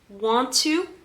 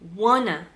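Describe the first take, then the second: First: It is said as two full separate words. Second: It is said as one reduced word. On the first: "Do you remember want to?" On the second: "We're going to pronounce it wanna"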